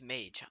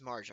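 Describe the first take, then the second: First: The name is said without an R sound. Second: The name is said with an R sound. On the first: The speaker calls it right. "No, it's Mage" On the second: The speaker calls it wrong. "I've been pronouncing the name wrong this entire time. I've been singing Invisible R"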